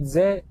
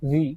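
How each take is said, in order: First: The word is said with a short 'uh' vowel. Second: The word is said with a long 'ee' vowel. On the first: "قال على كلمه ذا" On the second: "لان بعدها حرف متحرك"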